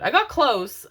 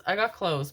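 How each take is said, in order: First: Louder and higher, proud insistence; emphatic. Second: Said in the usual way. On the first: Real, not acted. Mom telling viewers about her duck voice, emphatic. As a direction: punch "I got close" with pride. Retelling failed Donald Duck voice.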